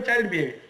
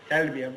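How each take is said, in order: First: Put-on "child behavior?" asked as an open question; questioning "child behavior?" with a lift of doubt; asking tone. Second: Put-on "Child behavior." dropped low and final; answering his own question, "Child behavior." falls flat and low. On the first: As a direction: pose "child behavior?" to the audience as a real question. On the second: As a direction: settle "Child behavior." as the verdict in a lower voice. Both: Shown as a demonstration.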